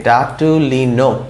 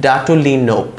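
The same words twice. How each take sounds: First: ডাটুলিনোপ drawn out, closing on P; slow sounding-out. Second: Said in the usual way. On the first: Shown as a demonstration. Teacher adding a P to the word, slow sounding-out. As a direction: stretch the syllables up to NOP. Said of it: "তারপর একটা পি যদি দেই". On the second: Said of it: "পয়ের মতো একটা উচ্চারণ".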